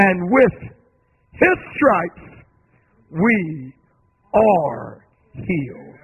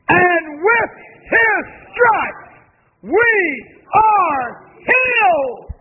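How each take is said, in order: First: It is said at normal volume. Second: It is said louder.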